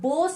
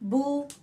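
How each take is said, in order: First: The vowel sounds like a long 'o'. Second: The vowel sounds like a long 'oo'. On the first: This is the Urdu-style way of reading. The speaker calls it wrong. "बो साउंड नहीं आएगा। ये हमारा मजहूल तरीका है, उर्दू के लबो लहजे पर" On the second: This is the Arabic-style way of reading. The speaker calls it right. "बू ऊ साउंड आएगा। ये हमारा मारूफ तरीका है"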